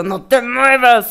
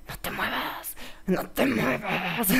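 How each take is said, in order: First: Said in the usual way. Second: Hushed little-voice whisper, drawn out; susurro. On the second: Acted. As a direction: whisper it as a soft, creepy warning. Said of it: "ah, susurra". (susurro de vocecilla)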